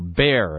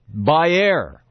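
First: The name is said the American way. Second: The name is said in a non-American way.

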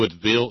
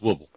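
First: The final 'ville' syllable is fully pronounced. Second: The final 'ville' syllable is barely pronounced. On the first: The speaker calls it wrong. "Not Woodville" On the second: The speaker calls it right. "When you're down in Alabama, it's Woodville. ... you just don't hardly say that V-I-L-L part"

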